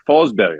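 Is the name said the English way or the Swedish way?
Swedish. The name is said with a Swedish pronunciation.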